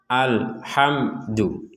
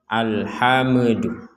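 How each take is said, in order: First: The final syllable is said clearly and steadily. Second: The final syllable is bounced off sharply. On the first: The speaker calls it right. "Jadi harus jelas alhamdu" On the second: The speaker calls it wrong. "jangan sampai dipentalkan menjadi alhamdu"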